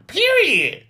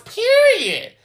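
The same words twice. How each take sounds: First: Said in the usual way. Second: Much higher, sassy drawn-out period; city girl voice. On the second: Shown as a demonstration. Vlogger ending her point on Cynthia, in a high city girl voice. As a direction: land it like a city girl closing the case. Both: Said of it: "In my city girl voice".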